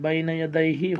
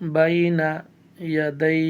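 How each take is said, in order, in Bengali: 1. শব্দগুচ্ছটি একটি হ্রস্ব স্বরধ্বনি দিয়ে শেষ হয়। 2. শব্দগুচ্ছটি ব্যঞ্জনবর্ণ দিয়ে শেষ হয়, স্বরধ্বনিটি বাদ পড়ে।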